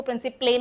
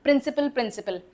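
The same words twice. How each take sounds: First: प्रिंसिपले with a wrong extra "ay" sound at the end; wrong pronunciation. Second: प्रिंसिपल ending in a short, light "pul"; correct pronunciation. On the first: Teacher showing students the wrong way to say प्रिंसिपले. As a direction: say प्रिंसिपले as the mistaken "principle-ay". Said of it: "इसको प्रिंसिपले नहीं बोलते". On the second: Teacher giving students the right way to say प्रिंसिपल. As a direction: say प्रिंसिपल as "prin-si-pul", both times the same. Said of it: "दोनों प्रिंसिपल ही pronounce किए जाते". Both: Shown as a demonstration.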